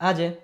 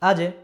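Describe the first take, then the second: First: The final j is released with a jolting bounce. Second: The final j is released with a jolting bounce.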